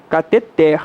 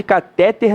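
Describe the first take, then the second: First: Cateter stressed on TER, in a lower voice; final-syllable stress. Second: Catéter stressed on the middle TÉ. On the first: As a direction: land the stress of cateter on the end. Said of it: "a pronúncia correta é uma oxítona". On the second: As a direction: punch the middle syllable of catéter. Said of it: "não existe". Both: Shown as a demonstration.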